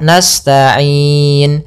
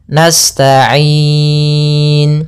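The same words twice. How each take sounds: First: The long vowel is held for four beats. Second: The long vowel is held for six beats. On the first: "Itu empat harokat" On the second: "atau enam harokat"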